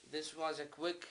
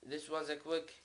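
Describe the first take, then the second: No difference in how they are said.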